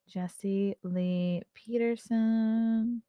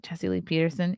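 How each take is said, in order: First: Drawn-out name. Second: Said in the usual way. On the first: Shown as a demonstration. Reading a guest name off the list, slow and drawn out. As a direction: say the name very slowly and softly, stretching Peterson.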